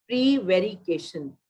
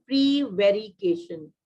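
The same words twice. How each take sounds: First: Prevarication repeated slowly and clearly; slow model word. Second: Prevarication said slowly and clearly; slow model word. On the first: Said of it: "teacher repeats the word". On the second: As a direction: stretch out Prevarication for the class. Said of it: "teacher models the word". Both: Shown as a demonstration.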